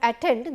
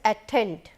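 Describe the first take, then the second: First: The t is said without a puff of air. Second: The t is said with a puff of air. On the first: "if you say attend instead of attend" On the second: "t is aspirated here"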